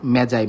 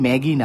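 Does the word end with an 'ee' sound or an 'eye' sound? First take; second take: eye; ee. First: It has a soft j and ends in 'eye'. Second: It has a hard g and ends in 'ee'. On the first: The speaker calls it right. "এটার উচ্চারণ আসলে মেজাই" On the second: The speaker calls it wrong. "এটার উচ্চারণ কিন্তু ম্যাগি না"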